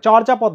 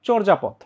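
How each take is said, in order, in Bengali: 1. প্রথম স্বরধ্বনিটি খোলা 'a' এর মতো উচ্চারিত হয়। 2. প্রথম স্বরধ্বনিটি 'o' এর মতো উচ্চারিত হয়। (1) "চর্যাপদ না" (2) "উচ্চারণটা হচ্ছে চর্যাপদ"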